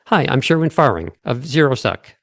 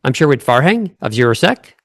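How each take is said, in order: First: "Farhang" and "Sec" settling downward; declarative. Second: "Farhang" and "Sec" both swinging up like questions; exaggerated upspeak. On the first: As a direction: state it, landing "Sec" like a full stop. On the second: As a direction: overdo the rise on "Farhang" and on "Sec", cartoonishly. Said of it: "exaggerated version of what you're doing". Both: Shown as a demonstration.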